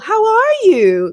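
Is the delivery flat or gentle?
gentle. It is said softly, with a gentle, tonal melody. The speaker puts the listener above themselves. "We don't go"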